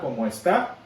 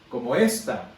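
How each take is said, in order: First: The last word is stressed on its final syllable. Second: The last word is stressed on its first syllable.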